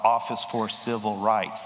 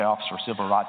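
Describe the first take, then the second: First: It is said very slowly. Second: It is said at normal pace.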